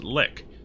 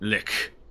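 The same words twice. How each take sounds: First: It ends in a plain, clipped k sound. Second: It ends in a breathy k sound. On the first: The speaker calls it wrong. "It's not just lick" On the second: The speaker calls it right. "There's a little H sound at the end"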